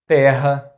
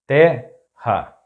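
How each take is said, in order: First: Terra as one word, stressed on TE; stress on second-to-last syllable. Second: Terra split in two, te - ha; syllable by syllable. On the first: Teacher giving an example word, terra stressed on TE. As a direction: say terra as TEH-ha, joined up. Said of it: "stressed syllable is the second to last". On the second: Teacher breaking down an example word, terra in separate syllables. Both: Shown as a demonstration.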